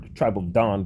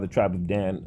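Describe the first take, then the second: First: The name is said the original-language way. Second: The name is said the everyday English way. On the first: The speaker calls it right. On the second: The speaker calls it wrong.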